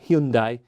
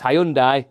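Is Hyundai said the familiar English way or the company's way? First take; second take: company's; familiar English. First: The name is said the company's official way. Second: The name is said the familiar English way. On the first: This is how the company wants it said. The speaker calls it wrong. "not Hyundai" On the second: This is how people have always said it. The speaker calls it right. "It's Hyundai"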